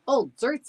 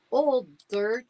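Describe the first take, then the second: First: High, loud eager cry. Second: High, doubtful repeat; incredulous echo. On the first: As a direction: announce it proudly. Dog adds a smell. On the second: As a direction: question the odd answer. Boy repeats in disbelief. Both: Acted.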